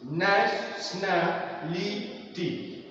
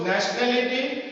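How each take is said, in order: First: "Nationality" very slowly, a gap after each syllable. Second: Said in the usual way. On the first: Shown as a demonstration. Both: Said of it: "there are more than two syllables".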